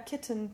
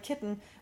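First: The middle t sound is short. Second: The middle t sound is held long. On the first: The speaker calls it right. "we don't hang on to the consonants" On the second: The speaker calls it wrong. "but we would never, like, kitten"

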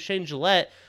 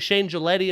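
First: The surname ends without an added vowel. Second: The surname ends with an added ee vowel. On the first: The speaker calls it right. "my name's" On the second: The speaker calls it wrong. "If you're analyzing"

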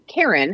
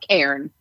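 First: The word is said with two syllables. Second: The word is said with one syllable. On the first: The speaker calls it wrong. "pronouncing this like the name Karen" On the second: The speaker calls it right. "the pros know to use one syllable instead of two"

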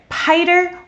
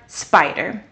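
First: The word starts without the s sound. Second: The word starts with an s sound. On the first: The speaker calls it wrong. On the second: The speaker calls it right.

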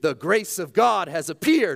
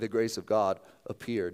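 First: It is said with strong, dramatic emphasis. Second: It is said casually, as an offhand aside.

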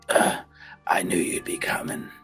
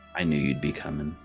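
First: It is said with a weary, exasperated groan. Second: It is said in a plain, neutral tone.

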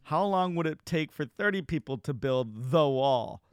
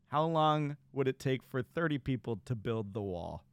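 First: The word 'the' is clearly emphasized. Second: The word 'the' gets no special emphasis.

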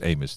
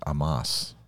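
First: The name is said with an English pronunciation. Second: The name is said with a Hebrew pronunciation. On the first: "It's Amos to us" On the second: "in Hebrew, is Amos"

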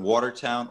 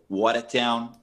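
First: It is said in a standard American accent. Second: It is said in a local Boston accent.

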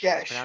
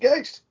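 First: The word ends with an 'sh' sound. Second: The word ends with an 'st' sound. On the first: The speaker calls it right. "it's Gesh" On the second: The speaker calls it wrong. "I always thought it was Geist"

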